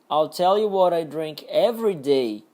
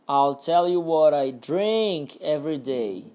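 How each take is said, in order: First: The stress falls on the words every day. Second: The stress falls on the word drink. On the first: "Agora no último, every day" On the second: "Agora no drink"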